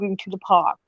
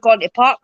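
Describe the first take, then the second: First: It is said in an English accent, words fully pronounced. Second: It is said in a Scottish accent, words run together. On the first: This is how an English person says it. "if you're listening to an English person, they pronunciate the words" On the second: This is how a Scottish person says it. "I just go with going to the park, mate"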